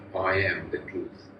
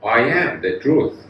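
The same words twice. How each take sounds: First: It is said at a softer volume. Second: It is said at a louder volume.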